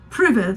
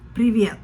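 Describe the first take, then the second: First: It is said like the English word pivot. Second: It is not said like the word pivot. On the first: The speaker calls it wrong. "it's not privet like pivot" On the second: The speaker calls it right. "it's privet"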